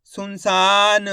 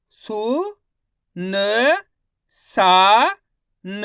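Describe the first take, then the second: First: सुनसान blended, with a long सा; teacher reading सुनसान slowly as a whole; syllables joined up. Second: सु, न, सा, न each isolated and held; teacher spelling aloud सु - न - सा - न; syllable by syllable. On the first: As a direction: stretch सुनसान as one word, final न released. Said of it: "तो मिलके बन जाएगा". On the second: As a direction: sound out सु, न, सा, न with a pause after each, सा loud. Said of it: "एक एक अक्षर का उच्चारण करके". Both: Shown as a demonstration.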